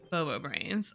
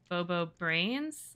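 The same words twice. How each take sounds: First: The name is said in a mocking tone. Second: The name is said in an admiring tone. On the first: The person is not smart. "or you're not smart" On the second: The person is smart. "because you're smart"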